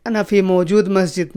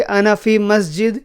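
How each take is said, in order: First: Wrong version. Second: Said in the usual way. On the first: Shown as a demonstration. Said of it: "موجود نہیں لگانا ہے". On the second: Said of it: "صرف اتنا بولو گے".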